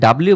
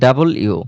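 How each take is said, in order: First: It is said as a squeezed 'dablyu'. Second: It is said as full 'double you'. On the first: The speaker calls it wrong. "ডাব্লিউ বলতাম, but এটা ডাব্লিউ না" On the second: The speaker calls it right. "বলতে হবে ডাবল ইউ"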